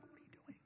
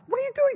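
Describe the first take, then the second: First: Voiceless, hushed disbelief; stunned whisper. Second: Much higher, louder astonished question; shocked high cry. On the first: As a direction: breathe it out in shock across the street. Stunned look across street. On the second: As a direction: cry it out in total surprise. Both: Retold or imitated.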